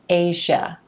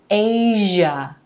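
First: The middle consonant is a voiceless sh. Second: The middle consonant is a voiced zh. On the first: The speaker calls it wrong. "not Asia" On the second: The speaker calls it right. "It's Asia"

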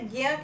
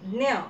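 First: It is pronounced the way Hindi speakers say it. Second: It is pronounced the way Marathi speakers say it. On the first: "Hindi में इसे ज्ञ कहते हैं" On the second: "Marathi ज्ञ"

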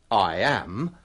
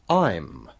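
First: Both words are said fully and separately. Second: The two words are joined into one syllable. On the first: The speaker calls it wrong. "Biasanya kita tidak mengatakan" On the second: The speaker calls it right. "but I'm"

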